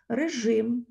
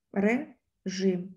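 First: Said in the usual way. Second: Режим split into ре and жим with a pause; syllable by syllable. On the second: Shown as a demonstration. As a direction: break режим slowly into two syllables. Teacher splits word into syllables. (режим повільно, по складах)

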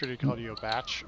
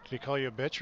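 First: "batch" with an open a vowel, as in "cat". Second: "bitch" with a short i vowel, as in "sit". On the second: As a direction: pronounce "bitch" with a clear i. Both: Shown as a demonstration.

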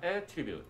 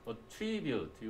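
First: Attribute with the stress thrown to the front, AT-tribute; stress on first syllable. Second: Attribute drawn out slowly with the stress on TRI, at-TRI-bute; stress on second syllable. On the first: Teacher contrasting the noun stress for students, AT-tribute. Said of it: "요거는 강세가 attribute, 앞에 올 때". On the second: Teacher slowly repeating the verb stress for students, at-TRI-bute. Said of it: "강세가 뒤에 올 때". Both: Shown as a demonstration.

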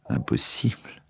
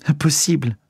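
First: Softer, whispered echo of disbelief; stunned whisper. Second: Higher, ringing disbelief; disbelieving cry. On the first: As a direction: let it fall to a whisper. Margot repeats, stunned. (murmuré, sans voix, incrédule) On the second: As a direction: refuse to believe it aloud. Margot refuses the news. (refus incrédule, voix plus aiguë) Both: A narrator's reading.

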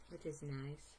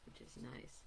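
First: Said in the usual way. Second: Soft unvoiced echo of the phrase; whispering. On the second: Real, not acted. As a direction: whisper the repeat to yourself. Repeated phrase, second one whispered.

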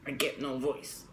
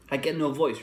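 First: Choked, pressed throat voice; strangled voice. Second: Said in the usual way. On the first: Shown as a demonstration. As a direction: squeeze the words out through a pressed throat. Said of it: "I press on my hands against my throat". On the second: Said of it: "the reason why I get a strangled voice".

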